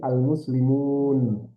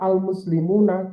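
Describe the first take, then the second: First: The word ends on a consonant, vowel dropped. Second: The word ends with a short final vowel.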